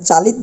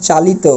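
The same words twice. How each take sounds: First: চালিত cut off at the t, "chalit"; wrong pronunciation. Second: চালিত ending in o, "chalito"; final o sound. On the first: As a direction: drop the final vowel of চালিত. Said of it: "এটা চালিত বলতে পারবো না". (চালিত শেষের ও ছাড়া, ভুল উচ্চারণে) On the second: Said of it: "সেটা ও এর মতো হবে". (চালিত শেষে ও-কার দিয়ে) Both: Shown as a demonstration.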